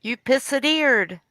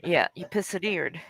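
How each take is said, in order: First: "pissedeered" said higher with a clear "pissed" at the start; repeated pun, higher. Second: "pissedeered" said softer with a clear "pissed" at the start; "pissedeered", quieter; softer pun. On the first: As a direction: stress "pissedeered", pitched up. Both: Shown as a demonstration. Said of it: "It's a play on words".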